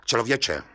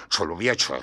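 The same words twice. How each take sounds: First: Mild grumble; grumbling. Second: Low grumble. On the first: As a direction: grumble at the man. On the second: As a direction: drop člověče into a low rumble. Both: A narrator's reading. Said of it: "bručel soudce".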